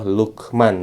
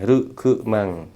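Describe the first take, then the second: First: Said in the usual way. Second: "Rukemang" slow, R for L and a vowel after k; Japanese pronunciation. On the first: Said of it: "jadinya Rukemang". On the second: Shown as a demonstration. Teacher showing how Japanese say his name Lukman. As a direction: say "Rukemang" slowly, every syllable voiced.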